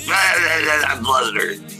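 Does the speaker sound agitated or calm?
agitated. The voice sounds agitated and worked up. "when I get flustered, but I'm like"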